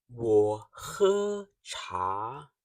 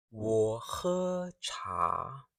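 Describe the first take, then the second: First: Plain. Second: Very slow, careful 我喝茶; slow model repeat. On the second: Teacher to class, slowly repeating. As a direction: drag 我喝茶 out so students copy. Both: Shown as a demonstration. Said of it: "listen carefully and speak with me".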